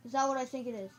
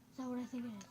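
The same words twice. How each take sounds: First: Raised voice, hard on THAT; louder repeat. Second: Said in the usual way. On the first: Real, not acted. Gamer spotting something far off, louder disbelief. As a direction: ask it louder, punching THAT. Repeats the question more forcefully.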